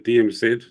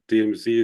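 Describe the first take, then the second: First: The letters are said in a non-American way. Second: The letters are said in an American way.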